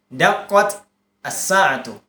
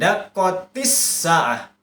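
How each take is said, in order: First: There is a stop between the two words. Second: The two words run together without a stop. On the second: "Langsung disambung"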